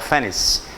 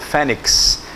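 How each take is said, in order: First: The word ends with an s sound. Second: The word ends with a ks sound. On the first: The speaker calls it right. "como se fosse uma espécie de um C E no final" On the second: The speaker calls it wrong. "eu pronunciei igual você sempre pronunciou"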